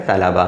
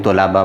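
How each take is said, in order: First: तलबा said correctly as ta-la-ba; तलबा with a clear short a first; correct pronunciation. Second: तलबा said the common wrong way, as tolaba; तलबा with a wrong first vowel; mispronunciation shown. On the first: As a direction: give the right तलबा after the wrong one. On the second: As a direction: show the wrong तलबा students use. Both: Shown as a demonstration. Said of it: "अक्सर हम इस लफ्ज़ को गलत बोलते हैं".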